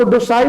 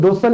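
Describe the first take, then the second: First: Docile with its second syllable as a long "eye-l"; wrong pronunciation demo. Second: Docile with a short, reduced ending, "do-sal"; correct pronunciation demo. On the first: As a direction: say docile as "do-sile", the reading to avoid. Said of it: "इसको docile नहीं पढ़ेंगे". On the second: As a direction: say docile as "DOH-sul", no "eye" sound. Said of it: "इसका real pronunciation है". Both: Shown as a demonstration.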